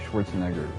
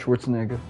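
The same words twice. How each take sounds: First: The R sound in the name is pronounced. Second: The R sound in the name is dropped. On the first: The speaker calls it right. "the right way" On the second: The speaker calls it wrong. "weird by not having the R"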